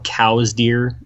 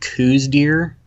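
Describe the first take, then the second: First: The name's vowel sounds like the word 'cow'. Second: The name's vowel does not sound like 'cow'. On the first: "a cow deer?" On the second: "I say Coues just because it doesn't sound weird"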